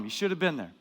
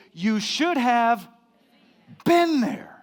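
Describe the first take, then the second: First: Said in the usual way. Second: Slow, high, drawn-out gloating; smug taunt. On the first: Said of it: "Turn to the person next to you and tell them". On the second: Retold or imitated. Preacher mocking a friend who went without him, smug. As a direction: rub it in, stretching every word. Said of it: "I hate that when people say that".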